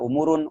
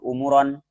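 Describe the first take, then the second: First: The word ends with the vowel u before n. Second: The word ends with the vowel o before n. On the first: "Tidak baca umurun" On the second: "Tidak baca"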